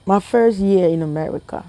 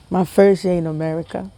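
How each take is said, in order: Both takes have the same delivery.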